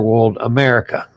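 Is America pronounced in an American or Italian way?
American. America is pronounced with an American accent. "which is typical U S pronunciation"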